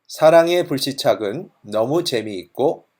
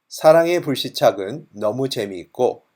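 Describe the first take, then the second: No difference in how they are said.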